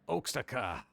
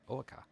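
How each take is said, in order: First: The middle X sound is clearly pronounced. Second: The middle X sound is left out.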